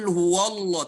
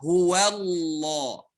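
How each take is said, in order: First: The wa is thick, sounding like o. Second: The wa is thin, a plain wa sound. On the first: The speaker calls it wrong. "Bukan kul huwallah" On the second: The speaker calls it right. "tapi kul huwa huwallah"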